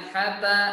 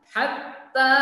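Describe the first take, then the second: First: The t is short and not doubled. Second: The t is held and clearly doubled. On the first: The speaker calls it wrong. "jangan sampai kita membacanya hatta" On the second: The speaker calls it right. "ta-nya dibaca dua harakat"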